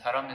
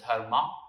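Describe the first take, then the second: First: The word ends with an 'm' sound. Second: The word ends with an open 'a' vowel. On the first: This is the Sanskrit pronunciation. "but dharam in Sanskrit" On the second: This is the common pronunciation. "commonly pronounced as dharma"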